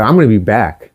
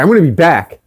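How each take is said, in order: First: Said in the usual way. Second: A touch of defiant threat; mildly pissed parting shot; defiant retort. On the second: Retold or imitated. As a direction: throw it back at her, mock tough. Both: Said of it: "I fucking told her that".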